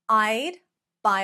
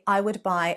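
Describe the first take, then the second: First: The two words are shortened into one syllable. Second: Both words are said fully and separately.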